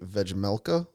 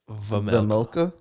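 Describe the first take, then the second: First: A J sound is heard in the name. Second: No J sound is heard in the name. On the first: The speaker calls it wrong. "Don't say the J" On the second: The speaker calls it right. "There you go"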